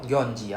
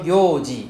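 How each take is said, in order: First: It is said with an n sound before ji. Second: It is said with no n sound before ji. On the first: The speaker calls it wrong. "not yonji ah if you write yonji it's wrong" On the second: The speaker calls it right. "so yoji not yonji"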